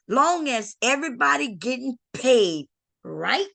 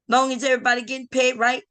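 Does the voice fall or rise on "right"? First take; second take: rise; fall. First: The voice rises on "right" like a question. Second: The voice falls on "right" like a statement. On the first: It asks whether everyone is okay with it. The speaker calls it right. "she didn't read it like that" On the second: It states that everyone is fine. The speaker calls it wrong. "you didn't read that right"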